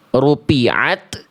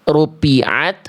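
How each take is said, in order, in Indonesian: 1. Huruf tengahnya adalah bunyi p tertutup. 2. Huruf tengahnya adalah bunyi p tertutup.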